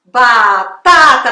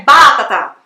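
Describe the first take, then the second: First: Very slow, loud "batata", ba... TAA-ta; stress on middle syllable. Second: Loud "batata" as BA-ta-ta; stress on first syllable. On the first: Teacher drilling the correct word, middle-syllable stress. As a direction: draw out "batata", hammering the middle TA. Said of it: "não é batata". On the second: Teacher showing what it is not, first-syllable stress. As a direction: hit the first BA of "batata" hard. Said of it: "dando o acento mais forte ali na primeira sílaba". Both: Shown as a demonstration.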